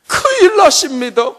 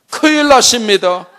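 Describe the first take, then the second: First: 큰일 shouted much higher and louder; desperate shout. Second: Higher and louder 큰일 나십니다; flustered wife. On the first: Mother crying to husband, desperate shout. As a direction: scream 큰일 in despair. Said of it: "큰일 났잖아요". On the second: Mother alarming husband, flustered. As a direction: blurt 큰일 in mild alarm. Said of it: "여보". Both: Retold or imitated.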